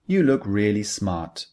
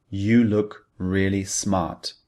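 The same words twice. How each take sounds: First: Said in the usual way. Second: "You look really smart" said slowly, each word weighted; stress on the second clause. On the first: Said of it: "We're trying to say". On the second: Shown as a demonstration. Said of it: "the emphasis is on the second clause".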